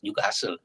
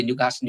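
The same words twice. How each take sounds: First: "Newcastle" as Geordies say it; Geordie pronunciation. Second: Said in the usual way. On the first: Shown as a demonstration. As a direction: Geordie "Newcastle", said at the front of the mouth. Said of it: "It's Newcastle". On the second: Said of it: "They don't say Newcastle".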